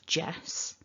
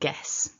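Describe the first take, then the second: First: It begins with a soft j sound. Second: It begins with a hard g sound. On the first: The speaker calls it right. "instead of jess" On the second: The speaker calls it wrong. "I've heard guess instead of jess"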